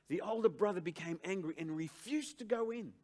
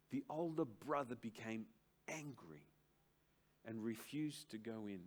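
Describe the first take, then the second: First: Louder, higher proclaiming of the verse; pulpit-pounding reread of scripture; preaching at full force. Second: Calm reading of the verse. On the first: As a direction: declare the verse to the congregation. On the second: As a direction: read the text gently before expounding it. Scripture read quietly. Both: Acted.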